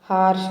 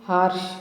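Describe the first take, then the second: The two takes are said the same way.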